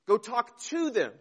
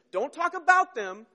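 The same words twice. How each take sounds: First: Firm instruction landing on "to"; stress on to. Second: Higher, louder push on "about them"; stress on about. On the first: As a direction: punch "to", then let the pitch fall. Contrasting to with about. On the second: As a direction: warn firmly, lifting "about". Contrasting about with to. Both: Shown as a demonstration.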